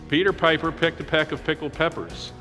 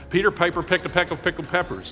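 First: It is said at a normal pace. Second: It is said quickly.

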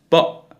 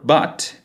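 First: The final T is a glottal stop. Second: The final T is fully released.

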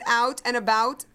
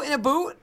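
First: It is said in the speaker's ordinary accent. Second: It is said in a put-on Canadian accent.

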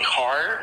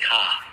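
First: The final R is clearly pronounced. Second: The final R is dropped.

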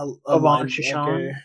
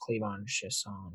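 First: The first name starts without a K sound. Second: The first name starts with a K sound. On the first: The speaker calls it wrong. "That's not how you say it" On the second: The speaker calls it right. "It's Clavon Chishon, I think"

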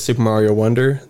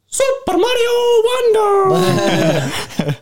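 First: It is said in his normal voice. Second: It is said in a Mario impression voice.

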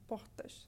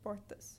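First: The R sounds like H and the S like sh. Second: The R is not breathy and the S is plain. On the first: "a person from Rio de Janeiro would pronounce it like portas. So we see this very aspirated, almost H-sounding R, and then the S turns into an S-H" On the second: "a person from São Paulo would probably pronounce it like portas"

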